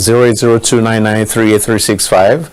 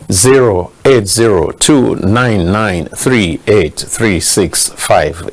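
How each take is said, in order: First: The number is read out fast. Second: The number is read out slowly.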